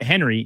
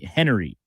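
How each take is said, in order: First: The name is said with two syllables. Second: The name is said with three syllables. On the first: The speaker calls it wrong. "not- not Henry" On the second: The speaker calls it right. "H E N E R Y"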